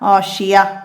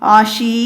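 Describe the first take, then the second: First: The word ends on a soft h sound. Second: The word ends on a long ee vowel. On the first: The speaker calls it right. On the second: The speaker calls it wrong. "ഈ ആഷീ എന്ന് പറഞ്ഞ് വഖഫ് ചെയ്യൂല"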